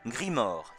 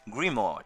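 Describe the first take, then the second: First: The name is pronounced the French way. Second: The name is pronounced the English way.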